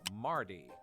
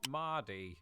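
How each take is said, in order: First: The R after the vowel is pronounced. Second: The R after the vowel is silent.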